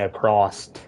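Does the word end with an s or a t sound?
t sound. It ends with an added t sound.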